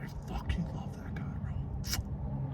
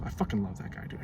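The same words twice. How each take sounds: First: Whispered fond aside; breathy whispered repeat. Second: Low, soft murmur; softer, lower aside; quiet affection. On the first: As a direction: whisper it like a secret. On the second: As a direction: say it softly to yourself. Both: Shown as a demonstration. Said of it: "repeated as whisper".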